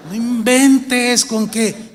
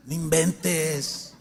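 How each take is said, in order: First: Loud, slow, laughing disbelief; laughing exclamation. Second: Softer, slow chuckled "no inventes"; soft laugh. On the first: Preacher laughing in disbelief at biker believers, loud and slow. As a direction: laugh it out loud, higher and stretched. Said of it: "preacher laughs, repeats louder". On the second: Preacher chuckling quietly to the congregation, slow. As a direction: chuckle "no inventes" under the breath, drawn out. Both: Real, not acted.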